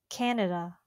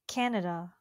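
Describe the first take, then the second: The two takes are said the same way.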